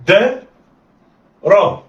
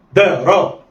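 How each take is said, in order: First: "دا" raised and held, pause, then "را"; letters sounded apart. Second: "دا را" run together in one quick go; snatch "دا را" with no pause between. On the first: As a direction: say "دا" and "را" as two separate syllables. دي طريقة الخطف. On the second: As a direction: blend "دا را" like one short word. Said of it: "دي طريقة الخطف". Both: Shown as a demonstration.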